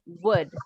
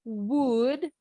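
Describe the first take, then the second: First: WOULD with a short relaxed vowel, falling; unpursed WOULD. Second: WOULD with pouted lips and a long oo, rising; pursed-lip WOULD. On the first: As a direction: say WOULD without pouting, short central vowel. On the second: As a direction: draw out a rounded oo in WOULD as a wrong example. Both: Shown as a demonstration. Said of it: "Ya nggak ada monyong ya".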